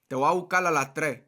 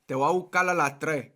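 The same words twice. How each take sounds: First: It is said in a Puerto Rican accent. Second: The same.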